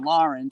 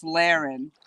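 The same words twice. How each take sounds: First: "Lauren" with first syllable like "lore"; pronounced LOR-en. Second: "Laren" with first syllable like "lair"; pronounced LAIR-en. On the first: Giving the other option for the name, "Lauren" said LOR-en. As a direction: say "Lauren" as LOR-en, not LAIR-en. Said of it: "I was saying Lauren, just spelled differently". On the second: Checking a viewer's name, "Laren" said LAIR-en. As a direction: say "Laren" to rhyme with "Karen". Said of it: "if I'm saying Laren". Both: Shown as a demonstration.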